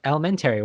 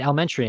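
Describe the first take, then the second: First: "elementary" ending in "terry"; "elementary" with a full "-tairy" ending; mimicked upstate pronunciation. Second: "elementary" ending in "tree"; corrected pronunciation. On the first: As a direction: echo "elementary" as el-uh-men-TERRY. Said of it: "and they're like". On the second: Retold or imitated. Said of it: "you mean elementary?".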